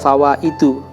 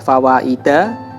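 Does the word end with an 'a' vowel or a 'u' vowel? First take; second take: u vowel; a vowel. First: The word ends with a short 'u' vowel. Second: The word ends with a short 'a' vowel. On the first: The speaker calls it wrong. "fawaidu dhammah" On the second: The speaker calls it right. "fawaida fathah"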